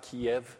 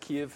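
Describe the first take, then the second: First: The name is said the Russian way. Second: The name is said the Ukrainian way. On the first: The speaker calls it wrong. "Kiev is the Russian pronunciation" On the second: The speaker calls it right. "That is Kyiv, not Kiev"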